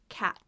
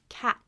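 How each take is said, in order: Both takes have the same delivery.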